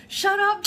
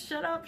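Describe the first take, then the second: First: Much higher and louder, a gleeful disbelieving yell; squealing shut up; excited shout. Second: Quiet amazed shut up; softer disbelief. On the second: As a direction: still higher but down at usual level, a hushed echo. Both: Retold or imitated. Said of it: "she says".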